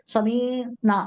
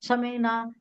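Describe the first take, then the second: First: A vowel in the word is drawn out long. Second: The word is said with short, normal vowels. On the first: It mockingly means our shepherd. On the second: We have heard.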